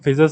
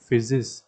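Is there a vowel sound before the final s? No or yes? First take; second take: no; yes. First: The ending is a bare s with no vowel. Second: The ending has a short vowel before s. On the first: The speaker calls it wrong. "फिजस नहीं बोलोगे" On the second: The speaker calls it right. "तुम बोलोगे फिजिस"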